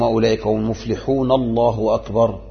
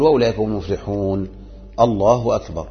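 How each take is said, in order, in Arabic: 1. الكلام متصل بلا سكتة قبل التكبير. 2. تأتي سكتة قصيرة قبل التكبير. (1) "ما يقول مثلا" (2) "وإنما يقول"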